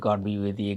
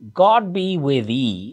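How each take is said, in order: First: The phrase is said quickly, running words together. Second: The phrase is said at a slow, careful pace.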